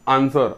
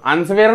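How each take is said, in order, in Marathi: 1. मधोमध w चा आवाज नाही. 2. मधोमध w चा आवाज उच्चारला जातो. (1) "उच्चार करताना असं करावं लागेल" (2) "नाही, चूक"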